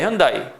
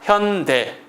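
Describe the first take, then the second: First: The name ends in a two-vowel 'da-i' sound. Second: The name ends in a single 'dae' vowel. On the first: The speaker calls it wrong. "발음되는 대로 읽으면 현다입니다" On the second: The speaker calls it right. "현대를 할 때는요"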